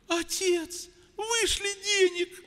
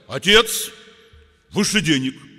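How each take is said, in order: First: It is said softly, as a polite request. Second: It is said harshly, as a rude demand. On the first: The son is politely asking for money. The speaker calls it right. "Он же, говорит, просит" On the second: The son is rudely demanding money. The speaker calls it wrong. "Ну кто же после этого пошлет ему"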